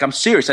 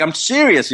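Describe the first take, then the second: First: Understated retold insistence; mildly insistent. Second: Higher-pitched, exasperated retold insistence; emphatically insistent. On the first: Friend on the phone wants to be believed, mildly insistent. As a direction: quote a friend insisting, without pushing it. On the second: Friend brushed off with whatever, retold emphatic insistence.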